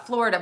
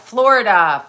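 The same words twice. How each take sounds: First: Said in the usual way. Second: Loud exclamation. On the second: Real, not acted.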